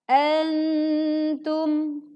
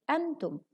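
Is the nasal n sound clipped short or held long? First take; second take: held long; clipped short. First: The nasal n sound is held fully and long. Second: The nasal n sound is clipped short and rushed. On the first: The speaker calls it right. "Yang betul adalah antum" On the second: The speaker calls it wrong. "tidak dibaca tergesa-gesa"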